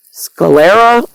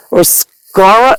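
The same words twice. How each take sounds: First: Sclera with three syllables, skuh-leh-ra, questioning; "Sclera" as "skuh-LEH-ra", rising and unsure; other way of sclera. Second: Sclera said short, like skara, slow; "sclera" as "skara", no middle syllable; first try at sclera. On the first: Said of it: "One of you says it's sclera". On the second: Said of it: "is it sclera?". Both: Shown as a demonstration.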